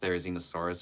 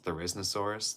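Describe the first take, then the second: First: The middle 'zi' syllable is kept. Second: The middle 'zi' syllable is dropped. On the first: "the genus Therizinosaurus" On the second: "as Theriznosaurus, that's that's wrong"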